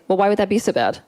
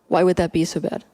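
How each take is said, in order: First: It sounds judgmental and shaming. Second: It sounds genuinely curious and open.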